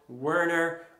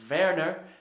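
First: The name is said with English pronunciation. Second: The name is said with German pronunciation.

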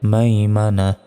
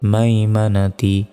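First: The word ends at na, without ti. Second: The word ends with a final ti syllable. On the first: The reader stops on this word. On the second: The reading continues without stopping.

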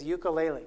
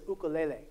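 First: It is pronounced the common English way. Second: It is pronounced the Hawaiian way. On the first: This is the familiar way most people say it. The speaker calls it wrong. "most of you will pronounce it like this" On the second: This is how it is said where it comes from. The speaker calls it right. "The way that the people who popularize this instrument pronounce it"

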